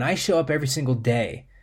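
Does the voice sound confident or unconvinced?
confident. It sounds strong and confident. The reader truly believes the words. The speaker calls it right. "one is empowering"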